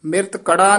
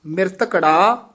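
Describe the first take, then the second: First: Quick ਮਿਰਤ ਕੜਾ, broken as two words; wrong word split. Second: ਮਿਰਤ ਕੜਾ joined as one word, long final ਾ; corrected joined word. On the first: Teacher warning against it, hurried split ਮਿਰਤ ਕੜਾ. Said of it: "ਨਹੀਂ ਕਹਿਣਾ". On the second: Teacher modelling the correction, joined ਮਿਰਤ ਕੜਾ. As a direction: link ਮਿਰਤ ਕੜਾ smoothly with a short vowel between. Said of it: "ਮਿਰਤ ਕੜਾ ਨਹੀਂ ਕਹਿਣਾ". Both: Shown as a demonstration.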